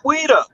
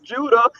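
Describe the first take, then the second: First: The name begins with a W sound. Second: The name begins with a J sound. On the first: The speaker calls it wrong. "and not Ouida" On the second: The speaker calls it right. "that name is supposed to be pronounced Judah"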